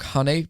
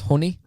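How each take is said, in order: First: It is said in the speaker's usual accent. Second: It is said in a northern English accent.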